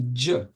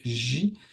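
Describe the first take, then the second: First: The consonant starts with a d-like stop. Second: The consonant is a soft hiss without a stop. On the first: This is the classical Quranic pronunciation. "en arabe coranique, euh, théoriquement, c'est dj" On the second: This is the common modern pronunciation. "en arabe moderne, tout le monde prononce J"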